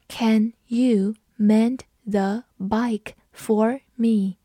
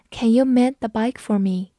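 First: Slow, careful read of the sentence. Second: Said in the usual way. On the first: Shown as a demonstration. Teacher reading slowly for students to follow. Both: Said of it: "我们慢读一遍".

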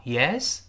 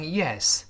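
First: YES swept upward like a question; rising YES. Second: YES dropping in pitch as a statement; falling YES. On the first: Teacher contrasting it with affirmation, "yes" rising to ask what is it. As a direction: stretch "yes" into a rise. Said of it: "升调yes". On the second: Teacher showing the affirmative meaning, "yes" falling. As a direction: say "yes" with a firm falling tune. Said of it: "是降调". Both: Shown as a demonstration.

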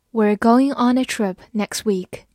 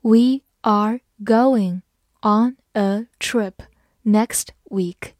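First: Said in the usual way. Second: Slow, word-by-word model reading; slow teacher's dictation, each word separate. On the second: Shown as a demonstration. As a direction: read it out slowly with pauses between words. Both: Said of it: "慢慢来读".

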